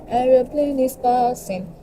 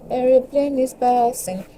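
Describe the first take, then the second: First: High, slow singsong "Aeroplane is passing"; singsong aside. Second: High, slow "Aeroplane is passing" again in singsong; singsong repeat. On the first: To viewers about the noise, slow high singsong. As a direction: chant it playfully like a kid. Remarking on plane noise playfully. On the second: Teasing the passing plane, slow high singsong. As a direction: drawl it out playfully. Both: Pretend.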